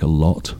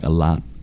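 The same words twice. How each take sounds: First: The vowel in lot is a British rounded o. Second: The vowel in lot is an open American ah. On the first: "we have a vowel which is an O in a word like a lot" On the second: "that is a different vowel in American English. It's something like"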